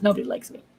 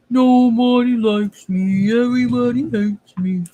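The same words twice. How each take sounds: First: Said in the usual way. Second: Slow whiny mock lament; hammed-up pity party; mock self-pity. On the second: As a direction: whine it like a sulking kid. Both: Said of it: "Just kidding".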